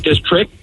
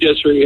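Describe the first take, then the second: First: The t sound in the word is pronounced. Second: The t sound in the word is dropped. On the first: The speaker calls it right. "people always say district" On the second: The speaker calls it wrong. "I don't ever put the T on district, so I always go"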